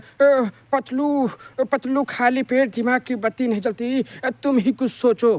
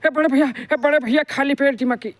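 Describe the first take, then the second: First: Motu's voice sounds sad and gloomy. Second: Motu's voice sounds hurried and out of breath.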